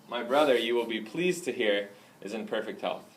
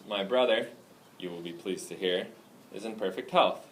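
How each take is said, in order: First: It is read with natural, light pauses. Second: It is read with long, exaggerated pauses.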